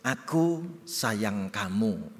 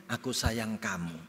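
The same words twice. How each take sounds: First: Tender. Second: Said in the usual way. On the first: Shown as a demonstration.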